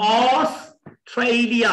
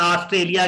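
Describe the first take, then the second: First: ऑस्ट्रेलिया drawn out as aws-TRAY-lia; English pronunciation. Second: ऑस्ट्रेलिया quickly as aas-trelia, with an open AA; Urdu pronunciation. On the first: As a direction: open ऑस्ट्रेलिया with a rounded AW and glide the EI. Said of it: "त जो है ठ में change". (ऑस्ट्रेलिया अंग्रेज़ी तलफ़्फ़ुज़ में, ऑस-ट्रेय-लिया) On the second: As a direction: say ऑस्ट्रेलिया the Urdu way, plain hard T. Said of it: "Urdu में ऑस्ट्रेलिया हो सकता है". (ऑस्ट्रेलिया उर्दू लहजे में, आस्ट्रेलिया) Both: Shown as a demonstration.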